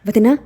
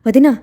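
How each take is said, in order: First: Calling out. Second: Loud calling shout of వదినా, higher. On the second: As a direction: yell వదినా across the villa. (వదినా అని గట్టిగా అరుస్తూ) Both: A narrator's reading. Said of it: "అని అరుచుకుంటూ".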